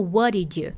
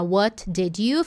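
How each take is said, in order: First: "What did you" blended as "wad-id-you"; linked. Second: "What did you" with a clear T on "What", slow; separate words, slow. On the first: Teacher showing how it is linked in the clip. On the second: Teacher showing the unlinked version, slowly. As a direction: sound every word of "What did you". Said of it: "ao invés de ficar". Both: Shown as a demonstration.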